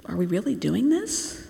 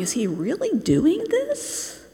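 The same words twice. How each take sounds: First: Softly voiced, uneasy question; a hesitant disciple's doubt, rising at the end. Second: High, slow, incredulous question; scandalized disbelief. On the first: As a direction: ask it softly, unsure, lifting the last word. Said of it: "feel and see their discomfort". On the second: Acted. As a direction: Pharisee gawking in disbelief, voice swooping up. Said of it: "picture the Pharisees ... looking in the door, going".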